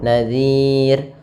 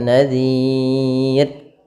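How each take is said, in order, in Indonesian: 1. Huruf mad panjang ditahan selama dua harakat. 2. Huruf mad panjang ditahan selama enam harakat.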